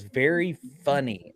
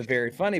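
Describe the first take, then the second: First: Drawn-out, deliberate quote; slow retold sarcasm. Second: Said in the usual way. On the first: Quoting the medium catching his fake-out, slow and deliberate. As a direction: stretch both words in a dry imitation.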